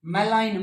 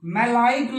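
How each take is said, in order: First: मेलाइन as ma-line, no g; silent g. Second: मेलाइन said as malai-gn, g before the n; sounded g. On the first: Teacher correcting students, g silent in मेलाइन. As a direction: end मेलाइन on a plain n. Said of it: "ग sound silent". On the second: Teacher showing the mistake, g sounded in मेलाइन. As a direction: put a g into the end of मेलाइन. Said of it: "मेलाइन नहीं". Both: Shown as a demonstration.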